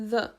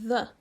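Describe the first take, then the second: Both takes have the same delivery.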